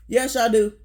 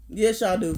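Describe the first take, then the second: First: Louder, emphatic yes y'all do, pressing the point; insistent yes. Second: Said in the usual way. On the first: Real, not acted. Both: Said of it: "Yes, the fuck y'all do".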